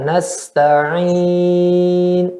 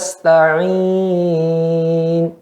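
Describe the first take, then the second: First: The long vowel is held for a moderate length. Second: The long vowel is stretched out far too long. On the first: The speaker calls it right. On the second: The speaker calls it wrong.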